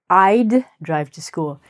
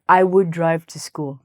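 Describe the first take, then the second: First: The word 'would' is contracted to 'd. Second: The word 'would' is said in full. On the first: The speaker calls it right. "We say" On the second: The speaker calls it wrong. "We don't say"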